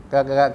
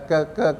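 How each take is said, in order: No difference in how they are said.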